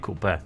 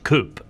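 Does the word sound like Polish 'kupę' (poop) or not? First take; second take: like kupę; not kupę. First: It sounds like the Polish word kupę. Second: It does not sound like the Polish word kupę. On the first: The speaker calls it wrong. "a nie coupe. Coupe to ty masz w jelitach" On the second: The speaker calls it right. "to się powinno mówić coupe"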